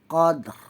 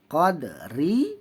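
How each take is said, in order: First: The word ends on a trilled r, no vowel. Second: The word ends with a full 'ri' vowel.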